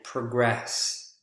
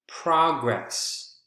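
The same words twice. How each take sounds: First: The stress is on the second syllable. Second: The stress is on the first syllable. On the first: It is a verb. "the second syllable" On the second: It is a noun. "the first syllable"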